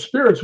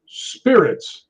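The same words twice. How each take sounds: First: High, quick retort of disbelief; mock incredulous. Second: Drawn-out, higher one-word ghostly answer; imitated spirit voice. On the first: Docent questioning the spirit box, mock incredulous. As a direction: echo it high, as if taken aback. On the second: Spirit box answering who pushed him, imitated ghost voice. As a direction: intone it slowly like a spirit replying.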